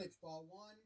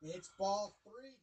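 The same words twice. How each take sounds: First: Said in the usual way. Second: Ball three stretched out, slow and heavy; slow drawn-out call. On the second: Retold or imitated.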